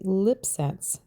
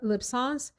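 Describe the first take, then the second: First: The name is said as English lip sense. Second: The name is said with a French-style pronunciation. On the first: The speaker calls it right. "just a combination of the word lips, and the first syllable of sensuality" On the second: The speaker calls it wrong. "trying to create a French pronunciation for this name"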